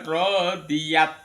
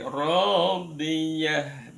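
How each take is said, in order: First: The word ends with a t sound. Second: The word ends with a soft h sound. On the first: The speaker calls it wrong. "bukan radiyat" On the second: The speaker calls it right.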